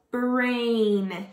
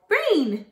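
First: "Brain" drawn out, sounds stuck together; slowly blended word. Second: Said in the usual way. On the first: Shown as a demonstration. Teacher blending sounds for kids, "Brain" stretched slowly. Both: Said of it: "you're going to stick it together".

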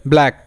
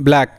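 Both takes have the same delivery.

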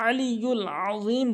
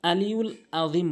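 First: আলিউল আযীম, both openings from mid-throat; slow আলিউল আযীম, squeezing the throat on each first vowel; throaty ayn. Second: আলিউল আযীম with light a sounds; hamza for ayn. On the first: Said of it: "বলতে হবে". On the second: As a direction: say আলিউল আযীম with a relaxed throat on each first vowel. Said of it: "হামজা এনে উচ্চারণ করে". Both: Shown as a demonstration.

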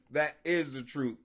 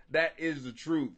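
No difference in how they are said.

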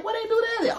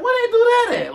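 First: High, fast disbelief; baffled question. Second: High, loud disbelief; baffled question. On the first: The victim asking again in high, quick disbelief. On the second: The victim of mind games asking in high disbelief. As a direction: squeak it out, baffled. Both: Retold or imitated. Same words said twice.

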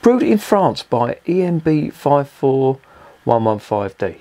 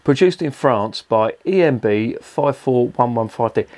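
First: Slow, higher, sneering readout of the code; drawn-out mocking read of the can's label. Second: Reading the label out. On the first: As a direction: spell out the code with slow disbelief. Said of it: "French convicts brewing beer now". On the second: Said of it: "this is the best one". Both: Real, not acted.

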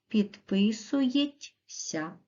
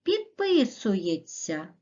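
First: Підписується read with a separate т and с; підписується sounded out letter by letter; spelling pronunciation. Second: Підписується said with a merged ts sound; Підписується spoken the normal way, with ts at the end; natural pronunciation. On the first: Teacher spells the word aloud for pupils, sounding every letter. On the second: Teacher says the word to pupils as it sounds. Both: Shown as a demonstration. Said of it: "а пишемо".

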